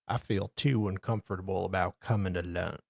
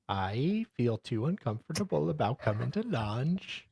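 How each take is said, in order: First: It is read in the reader's ordinary accent. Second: It is read in a put-on Australian accent.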